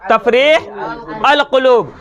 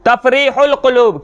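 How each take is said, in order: First: The article is said separately as 'al'. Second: The article is linked to the previous word as 'ul'. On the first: This is how it is written. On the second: This is how it is actually read.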